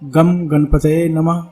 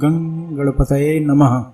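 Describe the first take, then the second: First: The first syllable ends in a clear m sound. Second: The first syllable ends in a nasal ng sound. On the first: The speaker calls it wrong. "गलत है" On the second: The speaker calls it right. "गंग कहा जाएगा"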